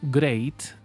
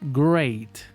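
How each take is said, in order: First: The R is rolled or bounced. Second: The R is plain, not rolled or bounced. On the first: The speaker calls it wrong. "It is not great" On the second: The speaker calls it right. "So it's great"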